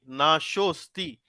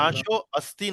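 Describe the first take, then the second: First: The two words are joined into one. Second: The two words are said separately. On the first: The speaker calls it right. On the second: The speaker calls it wrong.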